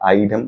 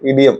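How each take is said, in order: First: The word begins with an 'eye' sound. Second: The word begins with a short 'ih' sound. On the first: Some people say it this way. "ഐഡിയം എന്നൊക്കെ പറയും ചില ആൾക്കാർ" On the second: This is how the speaker says it. "ഇഡിയം ഞാൻ പറയുന്നു"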